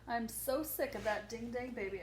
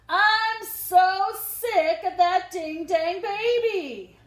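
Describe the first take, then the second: First: It is said fairly quietly. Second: It is said loudly.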